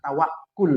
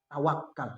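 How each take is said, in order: First: The last syllable has the vowel 'u'. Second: The last syllable has the vowel 'a'. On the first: This is the proper Arabic form. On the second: This is the everyday Indonesian form. "Namanya adalah tawakal dalam bahasa agama"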